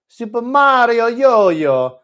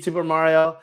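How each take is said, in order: First: High, loud, drawn-out mock Italian; hammed-up cartoon Italian accent, belted out slowly. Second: Said in the usual way. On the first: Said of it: "in that ridiculous Italian accent". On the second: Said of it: "hard for me to read Super Mario".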